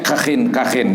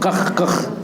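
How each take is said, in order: First: Each word ends with an added -in sound. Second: Each word ends on a bare kh sound. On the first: "bi kasriha ma'a tanwin" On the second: "boleh dibaca kha-nya sukun"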